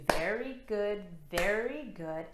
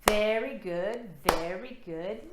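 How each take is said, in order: First: Said in the usual way. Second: Louder, bouncy cheer on very good; chanted encouragement; upbeat very good. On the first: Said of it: "clap your hands to". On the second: Shown as a demonstration. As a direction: praise it like cheering a child. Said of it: "Let's try that again".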